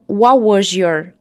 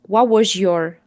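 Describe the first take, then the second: The two takes are said the same way.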